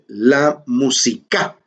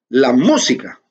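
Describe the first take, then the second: First: The stress is on the last syllable. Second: The stress is on the first syllable. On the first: The word is bent to fit the melody and rhyme. "Tilda convierte en aguda una palabra que es esdrújula" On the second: This is the normal form of the word. "el cantante no dice la música"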